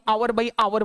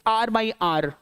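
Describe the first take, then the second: First: Hour has no h, two syllables. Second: Hour has no h, one syllable. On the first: The speaker calls it wrong. "ना ही आवर by आवर बोलते हैं" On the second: The speaker calls it right. "It's आर by आर"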